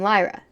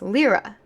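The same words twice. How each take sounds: First: The first vowel is not an 'ee' sound. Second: The first vowel is an 'ee' sound. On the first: This is how the reader assumed it sounds. "in my head, you say her name Lyra" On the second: This is how the character says it sounds. "like L E E R A"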